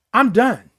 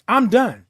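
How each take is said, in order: Both takes have the same delivery.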